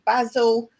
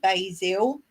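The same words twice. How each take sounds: First: It is said with a British pronunciation. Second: It is said with an American pronunciation. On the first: "We say basil" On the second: "as the Americans and Canadians say"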